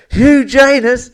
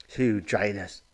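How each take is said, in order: First: Much higher, louder, slow "Hugh Janus?" stretched in disbelief; shocked exclamation. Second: Softer, lower "Hugh Janus." savoured under the breath; quiet repeat. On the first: Acted. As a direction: gasp the name out, scandalised. Nurse shocked by the name. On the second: Real, not acted. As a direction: murmur "Hugh Janus." to let it land.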